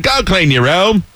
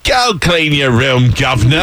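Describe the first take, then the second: First: Higher, slow mock Australian; hammed-up Aussie order; Australian accent. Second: Put-on slow, stretched Cockney-Australian hybrid accent; hammed-up Cockney order; mock Cockney. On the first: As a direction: stretch it out in broad Australian. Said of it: "That's Australian". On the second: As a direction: drag it out in bad Cockney. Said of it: "It's only cockney 'cause I said governor".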